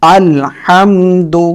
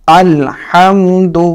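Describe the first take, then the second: Both takes have the same delivery.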